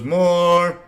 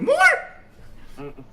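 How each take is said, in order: First: It is said in a low voice. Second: It is said in a very high voice.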